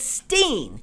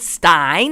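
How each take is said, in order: First: The vowel sounds like 'ee', rhyming with mean. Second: The vowel sounds like 'eye', rhyming with mine. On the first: "some of them pronounce it Steen" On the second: "some of them pronounce it Stein"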